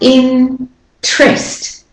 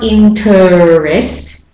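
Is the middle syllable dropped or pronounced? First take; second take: dropped; pronounced. First: The middle syllable is left out. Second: The middle syllable is fully pronounced. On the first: The speaker calls it right. "You leave out the syllable" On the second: The speaker calls it wrong. "It's not interest"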